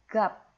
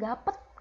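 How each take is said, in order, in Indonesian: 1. Berakhir dengan satu bunyi P. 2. Berakhir dengan suku kata tambahan 'et'. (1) "T-nya lebur ke P" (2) "bukan gapet, nggak ada E-nya guys"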